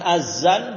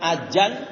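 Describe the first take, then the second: First: The middle consonant is a plain z sound. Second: The middle consonant is a j sound. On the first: "bukan pakai z. Bukan azan" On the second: "Ada juga yang pakai jim"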